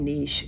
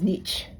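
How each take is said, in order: First: It is said with an Australian accent. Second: It is said with an American accent. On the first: "We say niche" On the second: "she says niche"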